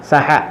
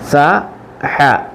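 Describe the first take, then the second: First: The two syllables are joined and said faster. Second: The two syllables are said separately with a pause.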